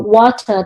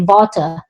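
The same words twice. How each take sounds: First: The word starts with a rounded W sound. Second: The word starts with teeth-on-lip V sound. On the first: "instead of a W sound" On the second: "they say V"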